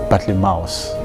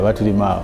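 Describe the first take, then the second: First: The name is pronounced the English way. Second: The name is pronounced the Luganda way. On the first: "that's the English pronunciation" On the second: "I know him better in Luganda"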